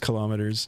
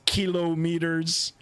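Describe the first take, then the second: First: The word gets the casual, everyday pronunciation. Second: The word gets the careful, formal pronunciation. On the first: This is how people commonly say it. "nobody really pronounces it like that. It's" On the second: This is the technically proper way to say it. "the proper nerdy way of pronouncing it"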